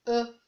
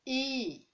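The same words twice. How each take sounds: First: French letter E, rounded "euh". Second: English letter E, long "ee". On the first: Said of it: "En français, on dit E". (E prononcé à la française, « euh ») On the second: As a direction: say E the English way, a drawn-out "ee". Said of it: "Là, on dit E". (E prononcé à l'anglaise, « iii ») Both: Shown as a demonstration.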